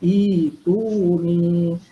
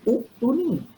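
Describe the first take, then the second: First: The word begins with an 'i' vowel. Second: The word begins with a 'u' vowel. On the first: The speaker calls it right. "sebab tu dibaca ituni" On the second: The speaker calls it wrong. "kalau ikut kaedah kena baca uktuni. Tapi kita tak boleh baca uktuni"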